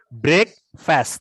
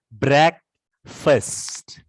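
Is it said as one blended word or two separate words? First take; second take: two words; one word. First: Two separate words, each with its own full vowel. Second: One blended word with changed, reduced vowels. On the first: "Ini cara membacanya adalah break. Ini cara membacanya adalah fast" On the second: "Tapi kalau digabung menjadi breakfast"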